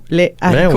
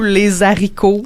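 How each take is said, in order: First: No z sound links les to haricots. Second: A z sound links les to haricots. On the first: "La façon correcte de le dire serait" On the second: "il y a bien du monde qui disent"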